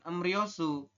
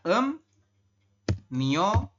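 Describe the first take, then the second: First: The second syllable begins with an R sound. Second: The second syllable begins with an N sound. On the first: The speaker calls it wrong. "Anda membacanya bukan em Ryosu" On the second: The speaker calls it right. "tapi adalah em Myosu"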